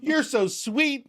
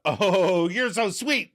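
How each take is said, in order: First: Much higher, slow, sugary sweet; oblivious sweet Katie. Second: Spat out. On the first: Host voicing Katie answering Rachel, high and syrupy. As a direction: coo it like she misses the hint. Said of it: "Katie, who can't take a hint". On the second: Host voicing Rachel snapping back at Katie, mock sweet. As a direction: spit the compliment back with venom. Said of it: "Rachel spits out". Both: Retold or imitated.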